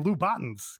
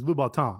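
First: The name is said with an American pronunciation. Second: The name is said with a French pronunciation. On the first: "Americans say Lubatins because they don't" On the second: "The French pronunciation is Lubatin"

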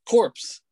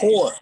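First: The word ends with a p and s sound. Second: The word ends without any p or s sound. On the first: The speaker calls it wrong. "that's not how you pronounce it" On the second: The speaker calls it right. "Core. Like, core"

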